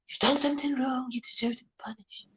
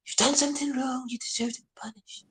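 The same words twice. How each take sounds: First: It is said in a changed, put-on voice. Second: It is said in a changed, put-on voice.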